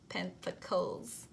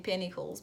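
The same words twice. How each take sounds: First: Pentacles said slowly, syllable by syllable, with a soft final "koz"; careful slow Pentacles. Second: Said in the usual way. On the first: Shown as a demonstration. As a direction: spell out Pentacles slowly and deliberately. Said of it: "I will have to say it like this every single time to say it properly". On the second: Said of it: "y'all understand the accent".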